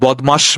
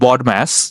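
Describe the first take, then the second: First: It is said comically, like a Bengali word. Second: It is said plainly, like an English acronym. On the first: "এটা বদমাস বলে উনি pronounce করতো" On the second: "we know it's বড ম্যাস"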